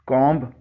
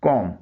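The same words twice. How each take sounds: First: कॉम्ब with the final b sounded; wrong-way कॉम्ब, ending on b; common mispronunciation. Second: कॉम with silent b; careful कॉम, no b at the end; correct pronunciation. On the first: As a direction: say कॉम्ब as "kawmb". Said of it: "इसे भी गलत तौर पर लोग". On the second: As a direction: say कॉम ending on m. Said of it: "इसका सही pronunciation है". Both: Shown as a demonstration.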